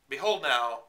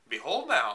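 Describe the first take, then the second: First: It is said in a more natural, normal voice. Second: It is said in an awful, exaggerated put-on voice. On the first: The speaker calls it right. "that's better" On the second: The speaker calls it wrong. "He probably didn't sound that awful"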